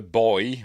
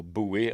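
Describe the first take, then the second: First: Put-on "boy" as the British way of saying buoy; "boy" with a single oy sound; one-syllable buoy. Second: "buoy" said as "boo-ee"; "buoy" with an oo then ee; two-syllable buoy. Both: Shown as a demonstration. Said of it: "however you want to pronounce it".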